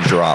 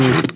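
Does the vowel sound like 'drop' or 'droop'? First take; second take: drop; droop. First: The vowel is short, as in 'drop'. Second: The vowel is long, as in 'droop'. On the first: "Normally people say drop" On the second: "but you say droop"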